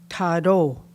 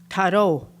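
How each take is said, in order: No difference in how they are said.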